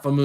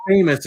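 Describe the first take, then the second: First: "Famoose" said as fuh-MOOZ; alternative pronunciation. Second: Said in the usual way. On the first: Shown as a demonstration. Host confirming the viewer's name, alternative pronunciation. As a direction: end "Famoose" on a long oo, second syllable. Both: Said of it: "we're using famous".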